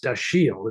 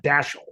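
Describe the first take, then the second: First: Dashiell as duh-SHEEL, stress on the second syllable; correct Dashiell. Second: Dashiell as DASH-ul, stress on the first syllable; wrong Dashiell. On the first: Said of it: "it's pronounced Dashiell". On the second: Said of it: "it's not Dashiell". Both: Shown as a demonstration.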